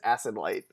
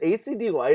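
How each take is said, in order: First: The first letters are blended into one word. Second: The first letters are spelled out one by one. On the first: "I've always read it as Acid Light" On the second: "Is it A C D Light?"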